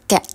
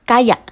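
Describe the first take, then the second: First: The word is said quickly, shortened to one syllable. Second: The word is said fully with two syllables.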